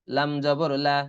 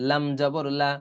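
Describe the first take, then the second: No difference in how they are said.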